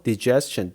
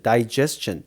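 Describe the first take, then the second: First: Digestion starting with a short "dih"; short first vowel. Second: Digestion starting with "die"; long i vowel. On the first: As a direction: say digestion as dih-JES-chun. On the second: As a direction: say digestion as die-JES-chun. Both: Shown as a demonstration. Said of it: "digestion 또는 digestion 이렇게 되는데".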